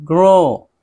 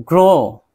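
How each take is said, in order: The two takes are said the same way.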